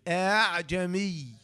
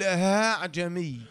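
First: The second hamza is softened toward a long a. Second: The second hamza sounds like a pure h. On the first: The speaker calls it right. "والرجع أن تقول كده" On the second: The speaker calls it wrong. "بعض القراء ينطقها هاء صرف"

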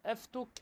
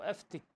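First: The vowel after the t is u. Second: The vowel after the t is i. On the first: "بالضم" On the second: "والكسر"

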